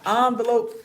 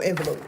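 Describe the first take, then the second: First: "Envelope" with an open AH first vowel; "ahn" pronunciation. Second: "envelope" with a short E first vowel; "en" pronunciation. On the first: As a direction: say "Envelope" starting with AHN, as in AHN-vuh-lope. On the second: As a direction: say "envelope" starting with EN, as in EN-vuh-lope. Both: Shown as a demonstration. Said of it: "How y'all pronounce it?".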